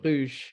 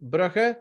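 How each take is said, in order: First: The name is given its French pronunciation. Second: The name is given its Dutch pronunciation. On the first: "in French, you say Bruges" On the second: "In Dutch, you would say Brugge"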